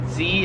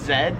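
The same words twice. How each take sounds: First: It is said the American way. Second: It is said the Australian way. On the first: "so I pronounce it Z as I just said" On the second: "in Australia they pronounce it Z"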